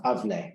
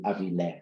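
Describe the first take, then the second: First: Avle said in two syllables, no vowel between v and l. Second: Avile said in three syllables, a vowel between v and l. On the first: Lecturer citing an Etruscan spelling, avle as two syllables. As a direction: run the v straight into the l in avle. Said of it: "with two syllables". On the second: Lecturer contrasting Etruscan spellings, avile as three syllables. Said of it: "rather than avi". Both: Shown as a demonstration.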